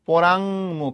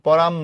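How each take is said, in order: First: The word is said with an 'ng' before 'mukh'. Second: The word is shortened without the 'ng' sound. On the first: The speaker calls it right. "শুদ্ধ উচ্চারণ" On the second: The speaker calls it wrong. "শুদ্ধ উচ্চারণ পরাম না"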